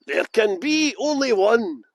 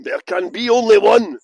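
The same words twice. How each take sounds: First: Slow, drawn-out dramatic catchphrase; slow portentous delivery; movie line. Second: Booming Highlander catchphrase, much louder; movie line. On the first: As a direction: savour each word like a trailer voiceover. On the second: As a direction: declaim it like the film trailer. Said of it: "the movie Highlander". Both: Pretend.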